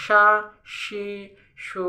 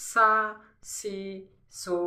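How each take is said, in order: First: সা, সি, সু said sha, shi, shu; sh from mid-tongue. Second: সা, সি, সু with a thin s at the teeth; touch tongue tip to teeth for a pure s in সা, সি, সু. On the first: Teacher showing where shin is made, broad sh. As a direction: sound সা, সি, সু with sh from the tongue's middle. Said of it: "জিহ্বার মাঝখান থেকে". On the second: Teacher showing where sin is made, tongue-tip s. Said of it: "এই সাউন্ডটা হবে হচ্ছে জিহ্বার". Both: Shown as a demonstration.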